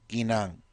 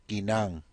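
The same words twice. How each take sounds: The two takes are said the same way.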